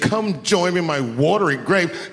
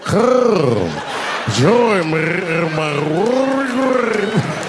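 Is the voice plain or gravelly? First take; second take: plain; gravelly. First: It is said in a plain voice. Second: It is said in a rolling, gravelly throat voice.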